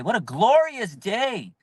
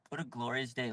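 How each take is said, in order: First: Slow, lingering on glorious; proud fan gloating; savoring exclamation. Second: Much softer and lower repeat; contented hushed afterthought; soft echo. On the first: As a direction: relish every word of What a glorious day. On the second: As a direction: murmur it again to yourself. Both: Real, not acted.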